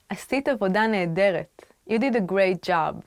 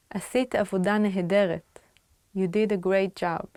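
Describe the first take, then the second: No difference in how they are said.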